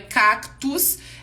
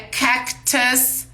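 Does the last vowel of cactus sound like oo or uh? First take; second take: oo; uh. First: The last vowel sounds like oo. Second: The last vowel is a short uh. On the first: The speaker calls it wrong. "não é cactus" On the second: The speaker calls it right. "é cactus"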